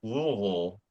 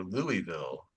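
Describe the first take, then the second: First: Louisville slurred down to LOO-uh-vul; swallowed Louisville. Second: Louisville as LOO-ee-vill, every syllable sounded; clear Louisville. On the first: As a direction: say Louisville slowly, syllables swallowed together. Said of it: "gone with the more, uh, Louisville". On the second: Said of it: "pronunciation over Louisville". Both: Shown as a demonstration.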